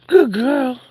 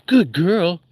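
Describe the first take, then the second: First: Dog praise. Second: Praising the dog. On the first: Praising the dog Kiki, in a high pet voice. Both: Real, not acted.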